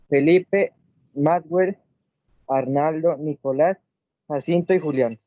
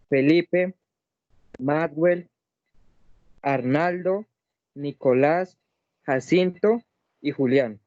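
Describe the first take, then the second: First: The names are read at a faster pace. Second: The names are read at a slower pace.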